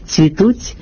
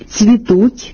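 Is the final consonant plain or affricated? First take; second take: affricated; plain. First: The final consonant has a hissing ts sound. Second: The final consonant is a plain soft t. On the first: The speaker calls it wrong. "поширена серед певної публіки вимова" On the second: The speaker calls it right. "замість"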